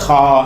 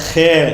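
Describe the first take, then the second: First: The letter name ends with an 'ah' vowel. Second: The letter name ends with an 'eh' vowel. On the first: This is the Arabic name for the letter. The speaker calls it right. "இது ஹா" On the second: This is the name people are commonly taught. The speaker calls it wrong. "ஹே அப்படின்னு சொல்லி தருவாங்க. தப்பு"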